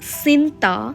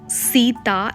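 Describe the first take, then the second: First: The name is said with an n sound. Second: The name is said without an n sound. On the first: This is the form used in Bali. "it's Sinta" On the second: This is the form used in India. "Sita is not pronounced as Sita"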